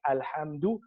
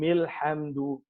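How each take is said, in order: First: It begins with a glottal stop. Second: It joins the previous word without a glottal stop. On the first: The word begins the reading. "you only pronounce it if you begin with it, like Alhamdu" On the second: The word is joined to what comes before. "if you join what's before it or what's after it, you eliminate it"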